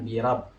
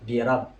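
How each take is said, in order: Both takes have the same delivery.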